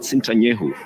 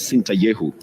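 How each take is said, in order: First: The name has an 'n' sound before 'ye'. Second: The name has no 'n' sound before 'ye'. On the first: The speaker calls it wrong. "He's not Sintanyehu" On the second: The speaker calls it right. "He's Sintayehu"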